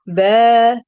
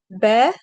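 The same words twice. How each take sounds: First: Ba held with the vowel stretched to two beats; elongated ba, long fatha. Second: Said in the usual way. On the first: Shown as a demonstration. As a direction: draw out the a in ba, loud and long. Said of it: "You see the difference?". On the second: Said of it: "But the second one".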